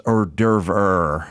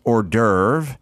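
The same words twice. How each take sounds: First: "hors d'oeuvre" as "or-DERV-er"; grandma's correction. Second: "hors d'oeuvre" as "or-DERV"; usual pronunciation. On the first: Quoting grandma's correction, "hors d'oeuvre" said as "or-DERV-er". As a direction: add an extra "er" to the end of "hors d'oeuvre". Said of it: "it was pronounced". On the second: Explaining what grandma rejected, "hors d'oeuvre" said as "or-DERV". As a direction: say "hors d'oeuvre" ending on the v sound. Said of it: "it wasn't pronounced". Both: Retold or imitated.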